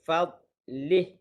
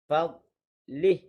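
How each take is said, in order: Both takes have the same delivery.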